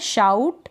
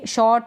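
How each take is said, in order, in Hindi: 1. स्वर फिसलती हुई 'ow' ध्वनि है। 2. स्वर गोलाकार 'aw' ध्वनि है। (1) "आउ बोला जा रहा है इसमें" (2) "ये शॉर्ट बॉन्स नहीं है"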